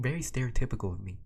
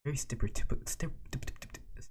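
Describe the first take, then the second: First: Said in the usual way. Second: "stereotypical" garbled, breaking into repeated st-st-st; tongue-tied stumble. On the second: Real, not acted. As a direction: trip over "stereotypical", stuttering on the first sound. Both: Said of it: "mouthing words is pretty hard".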